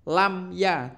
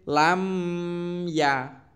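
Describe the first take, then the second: First: The sound is kept short. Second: The sound is drawn out long. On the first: The speaker calls it right. "Dan harus pendek" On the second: The speaker calls it wrong. "tidak boleh"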